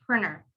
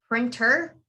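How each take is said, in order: First: "printer" said as "prinner"; silent T. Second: "printer" with a clear T after N; T pronounced. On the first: Teacher gives the real rule for printer, silent T. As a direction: drop the T after N in "printer". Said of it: "the real rule is printer". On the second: Teacher shows how some people say printer, T sounded. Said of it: "some people might say it as". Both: Shown as a demonstration.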